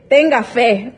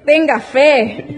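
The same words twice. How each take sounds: First: Said in the usual way. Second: "tenga fe" said very slowly and higher, each word weighed; slow emphatic repeat. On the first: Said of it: "tenga fe (repeated slowly)". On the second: Retold or imitated. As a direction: draw out "tenga fe" higher to press the point. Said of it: "Tenga fe, (first take)". (repetición lenta y enfática de "tenga fe")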